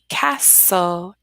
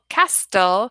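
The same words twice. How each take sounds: First: The T sound in the middle is silent. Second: The T sound in the middle is pronounced. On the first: The speaker calls it right. "So we have to silent T" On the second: The speaker calls it wrong. "if we try to say castle, castle, it's not the correct pronunciation of the word"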